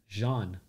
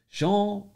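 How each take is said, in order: First: Said in the usual way. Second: Jean said loud and high with a French zh. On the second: Shown as a demonstration. Streamer teaching chat the French name, exaggerated. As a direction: stretch Jean out the French way, louder. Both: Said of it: "You have to pronounce it with a French".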